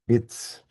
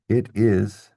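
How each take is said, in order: First: The vowel of is is dropped. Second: The vowel of is is fully pronounced.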